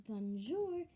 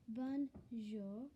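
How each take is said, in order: First: "bonjour" ending on a strong rolled-back English R; wrong pronunciation. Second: "bonjour" ending in a short, barely-there R; correct pronunciation. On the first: Girl showing viewers the wrong way to say "bonjour" with a hard R. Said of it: "instead of saying it like this". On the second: Girl teaching viewers the right "bonjour" with a short R. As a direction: say "bonjour" the French way, with the R clipped short. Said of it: "with a short R". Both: Shown as a demonstration.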